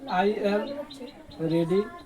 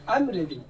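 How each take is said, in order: First: I am is said as two full words. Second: I am is shortened into one quick syllable.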